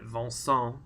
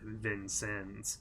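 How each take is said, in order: First: The name is said with a French pronunciation. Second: The name is said with an American pronunciation. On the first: This is how people in France say it. "as the French call it" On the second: This is how the local town says it. "we just called it"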